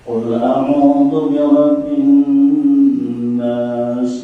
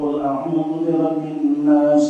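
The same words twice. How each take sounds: First: The recitation sways up and down in melody. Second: The recitation is even, with a light nasal hum. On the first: The speaker calls it wrong. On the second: The speaker calls it right. "Ada gunnah"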